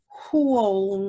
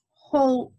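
First: "whole" stretched out with a W sound, like "hwole". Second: Said in the usual way. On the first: Shown as a demonstration. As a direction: say "whole" slowly with an audible w after the h. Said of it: "I say whole 'cause it starts with a W".

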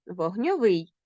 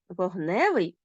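First: Вогньовий with final -ВИЙ stressed; stress on the ending. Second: Вогневий with middle НЕ stressed; stress on the suffix. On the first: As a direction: land on the last syllable of вогньовий. (наголос на закінченні: вогньоВИЙ) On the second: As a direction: lean on the middle syllable of вогневий. (наголос на суфіксі: вогНЕвий) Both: Shown as a demonstration. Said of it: "розрізняємо слова залежно від наголосу".

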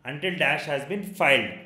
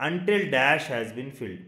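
First: Filed with a long i, as in file; correct word filed. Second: Filled with a short i, as in fill; reading it as filled, with a short i sound; wrong word filled. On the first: Teacher corrects his misreading to students, filed with a long i. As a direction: stress the long i sound in filed. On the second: Teacher reads the wrong word to his students, filled with a short i. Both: Shown as a demonstration. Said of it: "not filled, sir".

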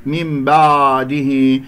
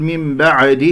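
First: "من بعده" with the ع slack and melted into a long a; floating ع. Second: "من بعده" with a little echo vowel after the ع; bounced ع. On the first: Teacher showing another mistake, loose drifting ع in "بعده". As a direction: let the ع in "بعده" float, barely closed. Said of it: "يجعل هذه العين عائمة". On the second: Teacher showing what someone might say, ع of "بعده" bounced. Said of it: "يقلقل العين". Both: Shown as a demonstration.

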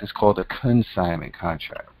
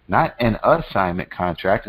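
First: "called" leaned on, "consignment" stated as the right word; stress on called. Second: "Not" hit hard, "assignment" pushed aside; stress on not. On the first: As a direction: correct the term, landing "called" and "consignment". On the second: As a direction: set "Not an assignment contract" against the right term. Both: Shown as a demonstration.

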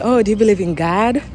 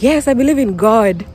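First: Lightly imitated American accent; mimicking American English. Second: Put-on plainly African-accented reply; Kenyan accent. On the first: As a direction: ask it like an American, "Gahd". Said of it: "to them, it's like". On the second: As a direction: answer in her own Kenyan accent. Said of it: "I'm here, I'm like".

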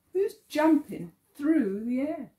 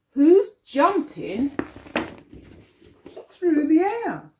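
First: Said in the usual way. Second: Lively read-aloud. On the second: Acted. Teacher reading to children, lively, higher and louder. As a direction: pump up the jump for the kids.

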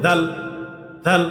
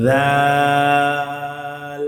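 First: দাল said short, "dhal"; wrongly rushed. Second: দাল with a long held "aa", "dhaaaal"; one-alif stretch. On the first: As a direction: cut the vowel of দাল brief. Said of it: "এভাবে তাড়াতাড়ি পড়লে হবে না". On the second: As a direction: sustain the vowel of দাল on a level note. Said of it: "এক আলিফ পরিমাণ টেনে". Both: Shown as a demonstration.

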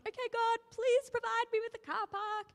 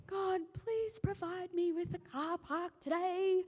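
First: High, louder chirpy plea; hopeful prayer. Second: High, slow, pleading little prayer. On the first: Driver asking God in Grand Central, high chirpy plea. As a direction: ask God brightly for a park. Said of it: "I was like". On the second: Speaker imitates her own parking prayer, high slow pleading. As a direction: beg God sweetly for a parking spot. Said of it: "I do the classic". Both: Retold or imitated.

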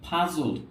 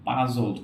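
First: "puzzled" with a puff of air on the p; breathy burst opening "puzzled"; aspirated p. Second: "puzzled" with no puff on the p; unaspirated lip pop opening "puzzled". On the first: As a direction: say "puzzled" as "phuzzled", lips popping air. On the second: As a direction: say "puzzled" with a dry p, close to b. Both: Shown as a demonstration. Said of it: "not puzzled".

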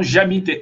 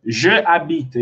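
First: "j'habite" run together as one word, no vowel after the j; contracted j'habite. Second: "Je habite" as two separate words; uncontracted form. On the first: Teacher answering a student's doubt, contracted "j'habite". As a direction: elide "Je" straight into "habite". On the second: Teacher showing how it was initially, uncontracted "Je habite". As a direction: sound the full "Je" before "habite", without elision. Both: Shown as a demonstration. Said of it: "inicialmente era assim".

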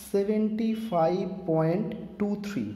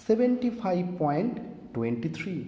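First: seventy five point টু থ্রি read slowly, each digit after the point said separately as টু, থ্রি; digit by digit decimal. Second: After the point say টোয়েন্টি থ্রি as one number, not টু থ্রি; decimal as whole number. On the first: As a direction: demo reading with টু থ্রি spoken one digit at a time. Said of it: "আমরা বলি". (দশমিকের পরে অঙ্কগুলো আলাদা করে ধীরে পড়া) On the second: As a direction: demo the common reading seventy five point টোয়েন্টি থ্রি. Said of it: "আবার আমরা বলি কেউ". (দশমিকের পরের অংশ টোয়েন্টি থ্রি একসাথে বলা) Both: Shown as a demonstration.

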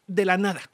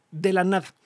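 The two takes are said the same way.

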